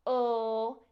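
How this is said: The L sound is crisp and oral. The speaker calls it right. "a crisp "l,""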